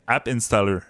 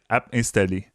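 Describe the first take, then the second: First: It is said with an English accent. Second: It is said with a French accent. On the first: "je peux pas dire app installer" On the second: "Je vais dire app installer"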